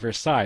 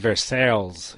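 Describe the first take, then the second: First: The word is pronounced the French way. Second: The word is pronounced as English spelling suggests. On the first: The speaker calls it right. "It's Versailles, it's French" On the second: The speaker calls it wrong. "it's the way I, I pronounced it, like in the fifth grade"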